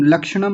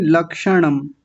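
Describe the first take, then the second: First: लक्षणम run together quickly; short middle syllable. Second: लक्षणम as lak-sha-nam, each syllable sounded; distinct syllables. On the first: Teacher showing the mistake, लक्षणम hurried. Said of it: "लक्षणम नहीं". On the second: Teacher modelling, लक्षणम as lak-sha-nam. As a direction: give the middle of लक्षणम its full vowel. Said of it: "ऐसा बोलेंगे". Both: Shown as a demonstration.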